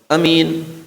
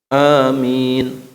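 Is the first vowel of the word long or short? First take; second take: short; long. First: The first vowel is said short. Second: The first vowel is held long. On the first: The speaker calls it wrong. "kalau membaca amin itu keliru" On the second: The speaker calls it right. "a-nya mad badal, kemudian min-nya mad arid disukun. Amin. Itu baru benar"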